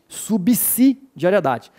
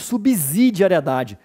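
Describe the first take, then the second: First: The letter after B sounds like an S. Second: The letter after B sounds like a Z. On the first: The speaker calls it right. "O S depois de B de bravo tem som de S, não tem som de Z" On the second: The speaker calls it wrong. "eu não disse subsidiariedade"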